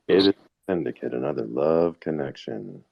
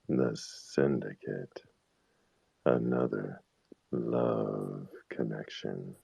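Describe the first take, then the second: First: It is said in a normal voice. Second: It is said deeper, slower and seedier.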